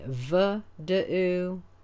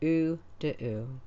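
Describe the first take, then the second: First: The word starts with a v consonant. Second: The word starts with a u vowel. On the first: The speaker calls it wrong. "we don't say v da'u" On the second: The speaker calls it right. "we say u da'u"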